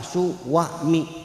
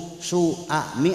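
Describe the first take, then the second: First: A w sound links the two vowels. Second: The vowels join without a w sound. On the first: "Ada w-nya enggak?" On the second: "Ada w-nya enggak?"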